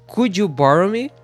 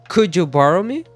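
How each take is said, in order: No difference in how they are said.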